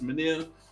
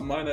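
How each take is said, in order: First: The name has an extra middle syllable. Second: The name sounds like the word minor. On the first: The speaker calls it right. "It's Minier" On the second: The speaker calls it wrong. "People call it Minor. It's not Minor"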